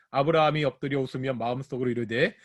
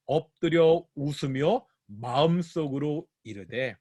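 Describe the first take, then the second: First: Quick, low-key scripture reading; brisk verse reading. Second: Slow phrase-by-phrase scripture quote; slowed down, each phrase set apart; slow, pointed quoting. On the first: Real, not acted. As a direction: read the verse straight through at a brisk pace. Reading the verse through aloud. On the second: Shown as a demonstration. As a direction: draw the verse out for the listeners. Re-quoting the verse to explain it.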